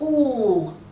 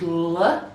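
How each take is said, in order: First: The consonant is held alone with no vowel. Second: The consonant is followed by an added vowel. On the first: The speaker calls it right. "the letter L is the ooh sound" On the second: The speaker calls it wrong. "L was pronounced as L"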